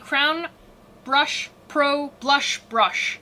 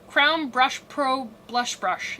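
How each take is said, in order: First: The phrase is said at a slower pace. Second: The phrase is said at a faster pace. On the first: "it's a mouthful" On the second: "try to say that a little bit faster"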